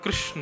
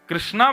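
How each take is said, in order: First: The name ends on the consonant, without 'aa'. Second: The name ends with a long 'aa' vowel. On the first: This is treated as the deity's own name. The speaker calls it right. "भगवान का नाम कृष्ण है, अकार मत लगाइए उसमें" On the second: This is treated as a different person's name. The speaker calls it wrong. "कृष्णा भगवान का नाम है ही नहीं"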